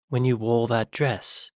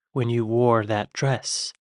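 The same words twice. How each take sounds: First: "wore" without a sounded R; British pronunciation. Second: "wore" with a sounded R; slower line, "wore" ending in an American R; imitated mispronunciation. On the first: Shown as a demonstration. Reactor trying the line properly, "wore" as R-less British "waw". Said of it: "instead of war when you wore that dress". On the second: Reactor copying the actress's slip, "wore" with a hard final R. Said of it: "she said war".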